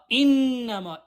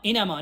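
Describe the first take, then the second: First: The doubled consonant is held firmly with nasal hum. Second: The doubled consonant is said lightly, not held. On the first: The speaker calls it right. "خوب محکم" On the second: The speaker calls it wrong. "نمیتونیم بخونیم اینما"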